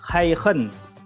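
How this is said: The name is said with a Dutch pronunciation. "Kalau bahasa Belandanya ini bukan Huygens, tapi Huygens"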